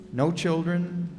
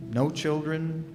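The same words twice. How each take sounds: The two takes are said the same way.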